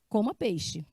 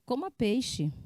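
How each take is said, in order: First: It is said as a firm order. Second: It is said as a pleading request.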